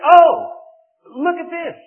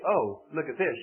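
First: The word oh is yelled loudly. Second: The word oh is said quietly and plainly.

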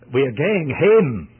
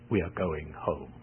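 First: It is spoken in a Scottish accent. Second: It is spoken in a plain accent. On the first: "I took the liberty of imitating the Scottish accent" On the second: "in translation"

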